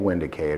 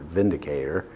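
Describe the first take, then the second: First: The name begins with a W sound. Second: The name begins with a V sound.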